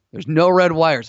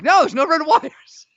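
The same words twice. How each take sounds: First: Said in the usual way. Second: Exasperated, high-pitched insistence; freaking out. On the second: Retold or imitated. Player retelling a bomb-game argument, freaking out. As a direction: insist in a high, drawn-out squeal. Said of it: "Sam freaking out at me".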